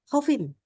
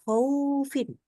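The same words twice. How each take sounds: First: The vowel glide is squeezed and rushed. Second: The u part is drawn out too long. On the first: "Terlalu buru-buru" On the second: "terlalu panjang di u-nya"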